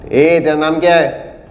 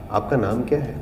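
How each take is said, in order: First: It is said in a harsh tone. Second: It is said in a soft tone.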